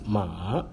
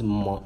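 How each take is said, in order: First: The pitch drops and then rises. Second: The pitch stays high and level. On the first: It means horse. "ma is horse" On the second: It means mother. "ma is ma, mama"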